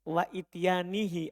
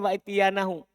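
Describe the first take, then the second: First: The word ends with a final 'hi' sound. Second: The word ends with a final 'hu' sound. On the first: The word is joined to the word before it, so the sense is broken. The speaker calls it wrong. "kalau antum baca wa ityanihi atop" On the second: The action happens together with the forbidding, so the sense is good. The speaker calls it right. "kalau saya baca sebagai maf'ul ma"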